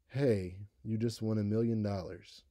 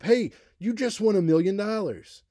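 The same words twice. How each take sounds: First: It is said flatly, with little pitch change. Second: It is said excitedly, faster, louder and higher. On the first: The speaker calls it wrong. "Would it sound like this?" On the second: The speaker calls it right. "You would probably be excited. Your rate, your volume, your pitch would all go up"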